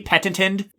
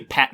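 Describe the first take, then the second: First: The T sound is clearly pronounced. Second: The T sound is left out. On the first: "If you want to say the T" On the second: "a lot of English speakers don't say the T"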